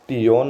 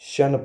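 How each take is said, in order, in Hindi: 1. इसका अंत 'tee-on' की तरह बोला जाता है। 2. इसका अंत 'shun' की तरह बोला जाता है। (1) "इसको टियोन नहीं पढ़ेंगे" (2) "पर ज़्यादातर इसको शन पढ़ेंगे"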